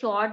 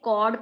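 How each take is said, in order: First: The word begins with a 'ch' sound. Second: The word begins with a 'k' sound. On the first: The speaker calls it wrong. "कुछ बच्चे class में चॉर्ड pronounce करते थे, चॉर्ड नहीं है" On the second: The speaker calls it right. "कॉर्ड pronounce करना है इसको"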